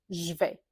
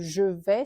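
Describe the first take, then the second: First: The two words are squeezed into one word. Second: Both words are said fully and separately. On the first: This is how people commonly speak in France. The speaker calls it wrong. "c'est comme si vous aviez un seul mot" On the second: This is the careful, correct form. The speaker calls it right. "au lieu de je vais"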